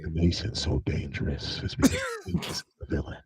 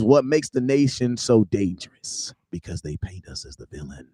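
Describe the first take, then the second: First: It is read in a put-on voice. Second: It is read in his normal voice.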